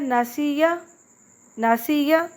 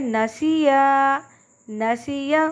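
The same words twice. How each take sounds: First: Both words have vowels of the same length. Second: Only the word with alif has a lengthened vowel. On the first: The speaker calls it wrong. "दोनों की मिकदार एक कर देते हैं" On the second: The speaker calls it right. "असल में इसको पढ़ने का सही तरीका है"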